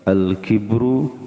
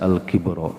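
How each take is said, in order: First: The word ends with a u vowel. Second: The word ends with an a vowel. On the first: The word is the subject of the sentence. "Jadi bacanya bisa al-kibru" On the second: The word is the object of an implied verb. "bisa al-kibro"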